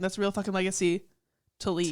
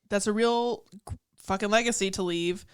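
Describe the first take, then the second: First: There is a pause before "to leave." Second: The phrase runs on without a pause before "to leave." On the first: His legacy is that he always leaves. "if you put a pause, there's a pause between" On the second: The memory he leaves in her head is the legacy. "there's two ways to take this line"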